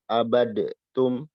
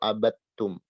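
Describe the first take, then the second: First: A separate d sound is heard before the t. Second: The d merges fully into a doubled t. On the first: The speaker calls it wrong. "Ini salah" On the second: The speaker calls it right. "Maka yang benar yang kedua"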